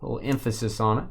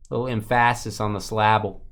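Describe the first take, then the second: First: Said in the usual way. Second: Emphasis said as em-FASS-is, syllable as sil-LAB-ul; joking wrong stress in emphasis and syllable; misplaced stress. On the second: Pretend. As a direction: put the stress on the second part of emphasis and syllable. Jokes with misplaced word stress.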